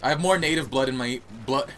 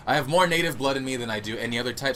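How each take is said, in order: First: Put-on slips into a light British accent; unplanned hint of a British accent. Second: Said in the usual way. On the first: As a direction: say it like a casual Brit. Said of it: "why I became British there for a second". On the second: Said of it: "why I became British there".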